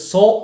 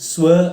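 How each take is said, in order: First: The vowel is a rounded 'aw' sound. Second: It has a w glide, like 'swa'. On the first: The speaker calls it right. "സോ എന്ന രീതിയിൽ തന്നെ പറയണം" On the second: The speaker calls it wrong. "ഈ രീതിയിലൊക്കെ ഇത് ഉച്ചരിക്കുന്നത് ഞാൻ കേട്ടിട്ടുണ്ട്"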